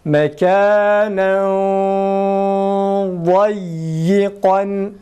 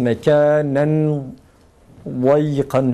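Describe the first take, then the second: First: The n is hidden in a thick nasal sound. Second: The n sound is pronounced clearly before the d. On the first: The speaker calls it right. "dad kalın olduğu için genizden e, kalın ses çıkarıyoruz" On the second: The speaker calls it wrong. "şeklinde değil de"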